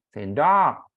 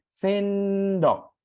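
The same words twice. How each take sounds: First: The stress is on the last syllable. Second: The stress is on the first syllable. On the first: The speaker calls it wrong. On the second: The speaker calls it right. "ngucapinya ditekan suku depan"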